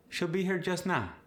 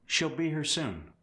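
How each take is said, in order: First: South African accent. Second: Said in the usual way. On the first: Shown as a demonstration. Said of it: "South Africans will often say". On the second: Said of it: "For instance".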